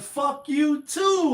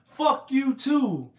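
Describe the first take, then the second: First: Slow, high, drawn-out mock comeback; lightly voiced Eddie Murphy comeback; hint of Eddie Murphy, slowed way down; Eddie Murphy impression. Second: Slow, higher drawn-out mock comeback; lightly voiced Eddie Murphy again; a hint of Eddie Murphy, slowed; Eddie Murphy impression. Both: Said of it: "Like some Eddie Murphy shit".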